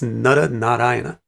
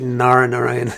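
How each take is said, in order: First: The name is said in its full traditional form. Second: The name is said in a clipped, anglicized way. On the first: The speaker calls it right. "it's Nara Narayana" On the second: The speaker calls it wrong. "It's not really Nara Narayan"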